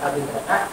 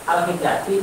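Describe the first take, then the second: First: The word ends with an 'a' vowel. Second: The word ends with an 'i' vowel. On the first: The ordinary accusative ending is applied. The speaker calls it wrong. "dibaca al hindata?" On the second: The word is a sound feminine plural in the accusative. The speaker calls it right. "Kok ini dibaca al hindati"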